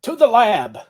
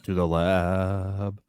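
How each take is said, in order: First: Loud, higher dramatic call; dramatic announcement. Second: Very slow, soft and ominous; slow ominous echo. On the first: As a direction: announce it like a TV promo. Dramatic echo of the show. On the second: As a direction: drag it out like a spooky tease. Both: Acted.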